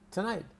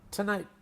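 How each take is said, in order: No difference in how they are said.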